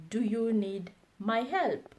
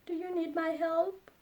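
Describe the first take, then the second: First: Said in the usual way. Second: High rising "Do you need my help?"; higher, rising question. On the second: Shown as a demonstration. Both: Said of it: "repeated model phrase".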